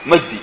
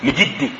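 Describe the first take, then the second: First: "مجدي" said as "Magdi", with an a; misread name. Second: "مجدي" said as "Mijdi", with an i; corrected name. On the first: Teacher showing a reader's mistake, "مجدي" as "Magdi". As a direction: say "مجدي" with open a after the meem. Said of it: "في واحد بيقول مجدي". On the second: Teacher correcting the misread name, "مجدي" as "Mijdi". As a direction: say "مجدي" with a kasra on the meem. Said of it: "لا، هي شنو؟". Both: Shown as a demonstration.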